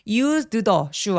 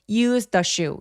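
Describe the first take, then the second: First: The d and the th are both said separately. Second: The d and th merge into one sound. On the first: The speaker calls it wrong. "used the shoe 아니에요" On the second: The speaker calls it right. "그냥 한 번만 발음하기"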